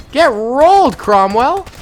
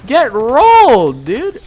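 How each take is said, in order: First: Loud gloating jeer, higher; excited taunt. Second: Loud, slow, stretched "rolled"; drawn-out taunt. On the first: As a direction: rub it in to the beaten tank. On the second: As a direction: drag out "rolled" in triumph. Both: Real, not acted. Taunting a destroyed tank.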